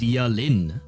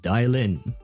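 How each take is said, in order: First: The name is pronounced in a non-English way. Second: The name is pronounced the English way. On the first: "I would have pronounced it Dialin" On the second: "if you pronounce it the English way"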